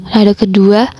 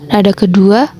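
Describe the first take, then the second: Both takes have the same delivery.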